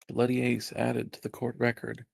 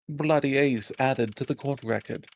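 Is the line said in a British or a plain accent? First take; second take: plain; British. First: It is said in the speaker's ordinary accent. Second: It is said in a put-on British accent.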